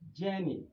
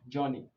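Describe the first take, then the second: First: The first vowel is long. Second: The first vowel is short. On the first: The speaker calls it right. "but journey" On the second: The speaker calls it wrong. "Here is not journey"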